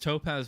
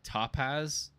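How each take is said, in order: First: The O is said in a plain, normal way. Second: The O is drawn out and over-enunciated. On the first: The speaker calls it right. "it's Topaz Motorsports" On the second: The speaker calls it wrong. "like over enunciate the O for some reason"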